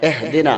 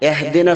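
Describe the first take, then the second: First: The first vowel sounds like 'e'. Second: The first vowel sounds like 'e'.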